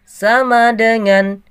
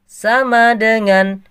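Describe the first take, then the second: No difference in how they are said.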